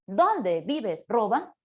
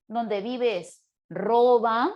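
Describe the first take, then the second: First: "Dónde" punched as the strongest word, "Roban" left weaker; stress on Dónde. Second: "Roban" loud and drawn out, "Dónde" left unstressed; stress on Roban. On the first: Teacher showing a misplaced stress in a compound question, main stress on "Dónde". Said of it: "coloco la mayor fuerza de voz en la primera partícula". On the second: Teacher demonstrating the second intonation, main stress on "Roban". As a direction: let "Roban" steal the force of the question. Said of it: "O mira la segunda entonación". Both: Shown as a demonstration.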